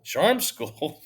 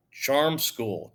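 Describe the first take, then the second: First: Higher, louder disbelieving repeat; amused disbelief; incredulous echo. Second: Said in the usual way. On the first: A narrator's reading. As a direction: throw it back as if it's ridiculous.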